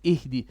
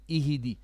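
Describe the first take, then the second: First: The h runs straight into the d. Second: An extra vowel is sounded after the h. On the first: The speaker calls it right. "It's ihdi" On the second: The speaker calls it wrong. "I think you bounced the ha here. You said ihidi"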